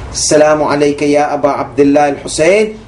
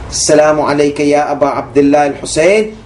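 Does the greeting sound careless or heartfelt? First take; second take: heartfelt; heartfelt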